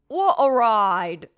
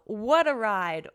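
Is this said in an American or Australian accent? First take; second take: Australian; American. First: It is said in an imitated Australian accent. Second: It is said in the speaker's normal American accent.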